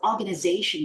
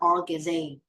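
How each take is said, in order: First: Every syllable of the word is pronounced. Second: Some syllables of the word are dropped. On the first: The speaker calls it right. "Don't miss any syllables when you pronounce the word" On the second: The speaker calls it wrong. "you just pronounce like organization or organization. It is very bad"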